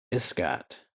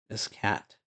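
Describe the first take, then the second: First: Iskat ending in an open "ah", like "is-KAHT"; Iskat, second vowel as in "father"; open final vowel. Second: Iskat ending like the word "cat"; Iskat, second vowel as in "cat"; front final vowel. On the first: Tries the name two ways. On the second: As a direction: say Iskat as "is-KAT". Repeats the name with another vowel. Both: Shown as a demonstration.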